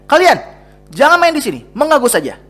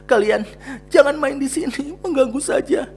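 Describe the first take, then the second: First: The line is said in an angry tone. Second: The line is said in a sad tone. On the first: The speaker calls it right. "harus terlihat dengan nada marah" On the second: The speaker calls it wrong. "Apakah dengan sedih"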